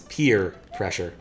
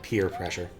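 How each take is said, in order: First: The first word is split like 'pee-er'. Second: The first word is said as plain 'peer'. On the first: It refers to needing to pee. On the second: It refers to pressure from peers.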